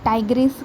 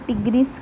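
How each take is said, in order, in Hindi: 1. पहला स्वर एक 'eye' ध्वनि है। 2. पहला स्वर एक छोटी 'i' ध्वनि है। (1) "कोई से टाइग्रिस कहेगा" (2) "कोई से टिग्रिस कहेगा"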